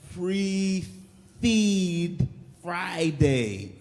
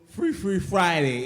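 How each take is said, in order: First: Each word is pronounced carefully and clearly. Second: The words are slurred with a lisp. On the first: "that took so much focus" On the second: "you want to hear less focus?"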